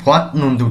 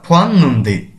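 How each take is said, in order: First: The first syllable ends in a t sound. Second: The first syllable ends in an n sound. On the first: The speaker calls it wrong. "উচ্চারণ করব না" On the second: The speaker calls it right. "এভাবে উচ্চারণ করব"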